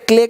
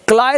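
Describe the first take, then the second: First: The vowel sounds like 'ay'. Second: The vowel sounds like 'eye'. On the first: The speaker calls it right. "क्ले कहते हैं" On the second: The speaker calls it wrong. "क्लाय नहीं कहते"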